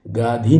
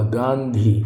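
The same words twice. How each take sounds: First: गाधी with no nasal; plain long aa before dh in गाधी; wrong pronunciation shown. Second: गांधी with a nasal n; correct pronunciation shown. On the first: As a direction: say गाधी as "gaa-dhee". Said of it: "गाधी नहीं होगा". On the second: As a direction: say गांधी as "gaan-dhee". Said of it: "गांधी होगा भाई". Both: Shown as a demonstration.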